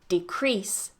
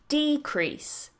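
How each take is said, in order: First: The stress is on the second syllable. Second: The stress is on the first syllable. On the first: It is used as a verb. "That's the verb" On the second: It is used as a noun. "The same goes for our next word, That's the noun"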